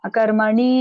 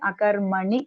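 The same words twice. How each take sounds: First: A vowel in the word is drawn out long. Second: The vowels in the word are kept short. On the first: The speaker calls it wrong. "you recited" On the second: The speaker calls it right. "should not elongate this one"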